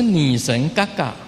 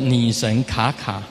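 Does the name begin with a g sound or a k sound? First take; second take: g sound; k sound. First: The name begins with a g sound. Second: The name begins with a k sound. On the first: The speaker calls it right. "嘎嘎才是对的啦" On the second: The speaker calls it wrong. "国语就叫[name]"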